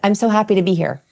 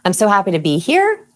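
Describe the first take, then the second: First: Low pitch, falling at the end. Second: Pitch rises at the end like a question. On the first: The speaker sounds confident. The speaker calls it right. "I say them in the lowest natural tone that I have without a question inflection" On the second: The speaker sounds nervous and unsure. The speaker calls it wrong. "So question inflection sounds like this"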